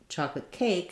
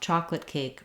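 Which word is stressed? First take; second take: cake; chocolate. First: The stress falls on the word cake. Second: The stress falls on the word chocolate. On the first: It is a neutral request for that kind of cake. "I'm stressing on cake" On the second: Chocolate is wanted rather than another flavor. "I would stress on chocolate instead of cake"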